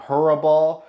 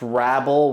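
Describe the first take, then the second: First: The name is said with three syllables. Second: The name is said with two syllables. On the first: "I will call him Hurabal" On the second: "it's pronounced Rabble"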